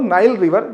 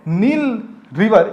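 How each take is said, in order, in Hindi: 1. नाइल को 'eye' स्वर के साथ बोला जाता है। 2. नाइल को 'ee' स्वर के साथ बोला जाता है। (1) "या फिर बोल लो" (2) "जो भी तुम चाहो प्रोनाउंसिएशन अपना कर सकते हो"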